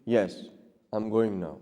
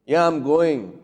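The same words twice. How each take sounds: First: Low, soft, even answer; reply quietly, with no edge; gentle, lowered voice, unprovoked; calm reply. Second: Curt retort, falling on GOING; mildly irritated comeback; defiant reply. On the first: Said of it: "Your response will be". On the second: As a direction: answer back, a touch defiant. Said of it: "you're going to be responding". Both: Shown as a demonstration.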